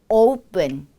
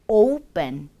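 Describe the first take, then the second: Both takes have the same delivery.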